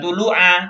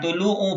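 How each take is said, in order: First: The word ends with an a vowel. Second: The word ends with a u vowel. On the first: The speaker calls it right. "Baca tulu'a" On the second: The speaker calls it wrong. "bukan tulu'u"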